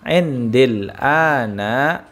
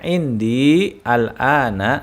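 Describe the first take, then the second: First: The words are linked into one smooth stretch. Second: The words are said separately, without linking. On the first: "disambung menjadi"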